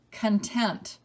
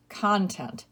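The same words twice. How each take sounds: First: Kun-TENT, second syllable stressed. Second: CON-tent, first syllable stressed. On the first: Teacher giving the spelling answer, content as kun-TENT. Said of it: "also pronounced content". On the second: Teacher giving other pronunciation, content as CON-tent. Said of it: "also pronounced". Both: Shown as a demonstration.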